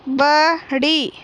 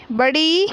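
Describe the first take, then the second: First: बड़ी slow, with the final ई drawn out; teacher modelling बड़ी slowly; stretched long ई. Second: Said in the usual way. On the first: Shown as a demonstration. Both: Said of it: "इस प्रकार पढ़ना है".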